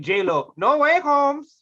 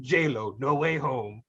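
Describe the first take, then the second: First: Jumps high and loud at the end; hyped title announcement. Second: Low movie-trailer style delivery; low title announcement. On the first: Pitching the joke sequel title, high emphatic finish. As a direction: punch the title upward, hammed-up. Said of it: "Yeah, I'd be like". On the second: Pitching the made-up movie title, low announcer delivery. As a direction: announce the title in a deep, measured voice. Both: Acted.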